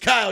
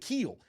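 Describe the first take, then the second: First: The vowel sounds like 'eye', as in mile. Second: The vowel sounds like 'ee', as in feel. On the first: The speaker calls it right. "no, it's Kyle, you're a moron" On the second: The speaker calls it wrong. "I already thought it was Keel. I went with Keel"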